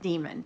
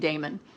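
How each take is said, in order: First: The first syllable sounds like 'dee'. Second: The first syllable sounds like 'day'. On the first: This is how the audiobook narrator says it. "Justine Eyre pronounces it demon" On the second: This is the speaker's own preferred way. "So I'm calling him Damon"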